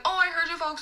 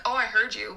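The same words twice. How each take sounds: First: Higher, friendly "I heard you folks"; friendly reassurance. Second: Pointed call-out. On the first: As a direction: lift it into a friendly server's tone. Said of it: "but I was like". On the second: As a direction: say it pointedly, without friendly lift. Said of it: "not like". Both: Shown as a demonstration.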